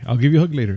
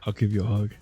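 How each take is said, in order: First: It is said in his normal voice. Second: It is said in a put-on creepy voice.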